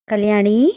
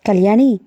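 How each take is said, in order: First: Eager fond call. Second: Calling again. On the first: Lover calls her name eagerly and fondly. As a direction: call her gently with longing. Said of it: "ఆత్రంగా, అభిమానంగా పిలిచాడు". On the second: Lover calls again when she doesn't hear, firmer. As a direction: call again more firmly to get her attention. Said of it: "మళ్ళీ పిలిచాడు Anand". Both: Acted.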